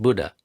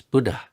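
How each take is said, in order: First: Buddha with no puff of air on the D; wrong Buddha. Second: Buddha with a little puff of air on the dh; aspirated Buddha. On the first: Teacher showing the wrong Buddha, unaspirated. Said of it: "It's not Buddha". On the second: Teacher showing the right Buddha, aspirated. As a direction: breathe out after the D in Buddha. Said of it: "There's a little h". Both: Shown as a demonstration.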